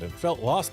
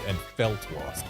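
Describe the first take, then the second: First: The word felt is not stressed. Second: The word felt is stressed. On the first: The speaker calls it wrong. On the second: The speaker calls it right.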